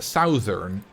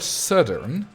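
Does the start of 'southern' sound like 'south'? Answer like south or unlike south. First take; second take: like south; unlike south. First: The first part sounds just like 'south'. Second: The first part does not sound like 'south'. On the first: The speaker calls it wrong. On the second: The speaker calls it right.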